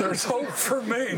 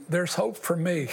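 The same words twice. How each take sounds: First: Slower, laughing through the words; relieved laughter, drawn out; slow laughing repeat. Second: Lowered voice, chuckling through it; hopeful words through a chuckle; laughing with relief. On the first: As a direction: savour it with a laugh. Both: Retold or imitated. Joy at hearing the preacher.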